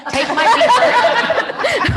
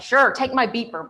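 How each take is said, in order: First: High, loud, slow, laughing; laughing repeat. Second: Said in the usual way. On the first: Real, not acted. Agent repeating Marty's beeper offer while cracking up. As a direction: savor the absurd memory through laughter. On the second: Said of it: "she's like".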